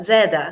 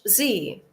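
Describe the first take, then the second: First: It is said the British way, as zed. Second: It is said the American way, as zee.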